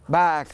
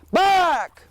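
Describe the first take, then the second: First: The word is said very softly. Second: The word is said loudly and forcefully. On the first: The target is there but not far away. "I said back very, very, very softly" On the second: The target is far away and he must push on. "we're going to amp up our volume level"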